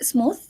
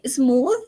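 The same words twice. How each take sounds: First: The th sound is voiceless without vibration. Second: The th sound is voiced and vibrates. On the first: The speaker calls it wrong. "and not smooth" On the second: The speaker calls it right. "We say smooth"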